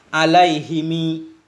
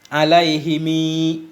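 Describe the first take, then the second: No difference in how they are said.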